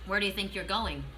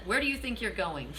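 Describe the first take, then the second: First: Said in the usual way. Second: Laughing through the question; amused, laughter breaking in. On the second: Retold or imitated. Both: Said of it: "That's funny".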